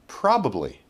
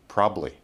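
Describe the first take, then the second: First: It is said with three syllables. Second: It is said with two syllables.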